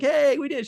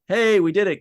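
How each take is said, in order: First: The tone is bright and enthusiastic. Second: The tone is dry and sarcastic. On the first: The speaker is genuinely pleased. "she wasn't like actually enthusiastic, like" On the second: The speaker is not really pleased. "like sarcastically"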